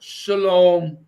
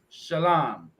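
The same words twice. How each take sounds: First: Shalom as "shuh-LOHM", with a long round O; wrong pronunciation. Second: Shalom as "shuh-LAHM", with an open A; correct pronunciation. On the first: Showing a viewer what not to say, mispronounced shalom as "shuh-LOHM". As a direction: draw out shalom with an "oh" vowel. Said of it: "it's not shalom". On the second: Correcting a viewer on Hebrew, shalom pronounced "shuh-LAHM". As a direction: slowly say shalom ending in "lahm". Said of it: "it's shalom". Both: Shown as a demonstration.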